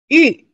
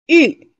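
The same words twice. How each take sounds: The two takes are said the same way.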